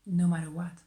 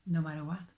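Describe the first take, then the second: First: No matter what said louder, pressed; stress on No matter what. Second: Said in the usual way. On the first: Shown as a demonstration. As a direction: punch No matter what with more force.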